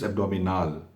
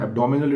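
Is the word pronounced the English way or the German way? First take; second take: German; English. First: The word is pronounced with a German accent. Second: The word is pronounced with an English accent. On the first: The speaker calls it right. "it's abdominal, like that" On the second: The speaker calls it wrong. "It's not abdominal"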